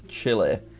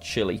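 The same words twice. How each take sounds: First: It is pronounced the local Spanish way. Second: It is pronounced the usual English way. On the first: This is how people in the country say it. "Chilean people prefer it to be called Chile" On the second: This is how people in Europe and the USA say it. "people in Europe and the U S A and stuff seem to call it Chile"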